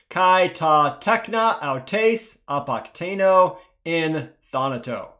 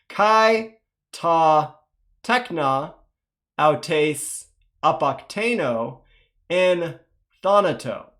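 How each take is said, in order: First: It is read at a faster pace. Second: It is read at a slow pace. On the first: "one more time, a bit faster" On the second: "let's go nice and slow to start"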